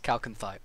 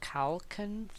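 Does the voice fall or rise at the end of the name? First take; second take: fall; rise. First: The pitch falls at the end, like a statement. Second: The pitch rises at the end, like a question. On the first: The speaker is confident of the name. The speaker calls it right. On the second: The speaker is unsure of the name. The speaker calls it wrong.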